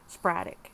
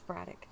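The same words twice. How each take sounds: First: The word is said at an ordinary pace. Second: The word is said very quickly.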